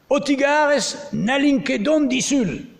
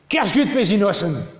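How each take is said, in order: First: Every syllable is said fully and carefully. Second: Syllables are dropped and run together quickly. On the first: This is the more formal register. "Une manière de le dire" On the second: This is a casual, relaxed register. "on a changé de registre comme on peut changer de tempo... on a réduit de 50%"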